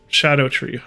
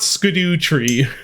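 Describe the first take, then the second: First: It begins with a soft 'sh' sound. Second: It begins with a hard 'sk' sound. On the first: The speaker calls it right. "you pronounce it just like Shadow Tree" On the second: The speaker calls it wrong. "It's not skidoo tree"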